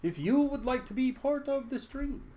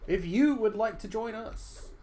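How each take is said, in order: First: Much higher Australian-ish host voice, slightly off; attempted Australian accent. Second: Higher, slow put-on Australian accent that misses; slow it down and try the Australian accent again; second try at Australian accent. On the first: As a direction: invite viewers in a faltering Australian accent. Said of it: "I wanna be Australian". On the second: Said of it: "That's still not the voice I can do".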